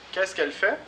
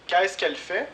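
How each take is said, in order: First: Fait carries the stress at the rising end; repeat for class. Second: Qu'est-ce stressed, higher and louder, with a rising question tune; question model. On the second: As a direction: open high and loud on Qu'est-ce. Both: Shown as a demonstration. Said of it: "Les questions avec faire".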